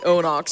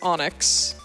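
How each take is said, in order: First: The last syllable has an 'o' vowel, 'nox'. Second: The last syllable has an 'i' vowel, 'nix'. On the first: This is how someone else says it. The speaker calls it wrong. "He pronounces it Onox" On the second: This is how the speaker thinks it should be said. The speaker calls it right. "but it's Onyx"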